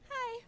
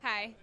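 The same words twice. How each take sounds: First: It is said in a lighter, natural voice. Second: It is said in a deep, manly voice.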